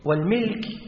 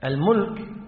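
First: The vowel after the m is i. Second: The vowel after the m is u. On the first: It refers to ownership of property. "والملك هو الذي يكون تحت ملكيتك" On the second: It refers to rule or sovereignty. "الملك يعني الحاكم"

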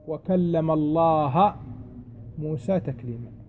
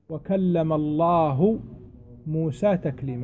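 First: The word Allah ends with an 'a' vowel. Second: The word Allah ends with a 'u' vowel. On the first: Moses is the one who spoke. The speaker calls it wrong. "فهم يقولون: لا" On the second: God is the one who spoke. The speaker calls it right. "فإذا أنت قلت"

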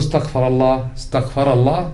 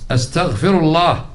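First: The verb is voweled like a past tense, istaghfara. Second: The verb is voweled like present tense, astaghfiru. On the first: God sought forgiveness. The speaker calls it wrong. "ما تقول استغفر الله" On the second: I seek God's forgiveness. The speaker calls it right. "أنت تقول استغفر الله زين"

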